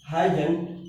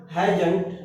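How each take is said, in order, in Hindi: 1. यह एक छोटे, संक्षिप्त शब्द की तरह बोला जाता है। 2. यह एक छोटे, संक्षिप्त शब्द की तरह बोला जाता है।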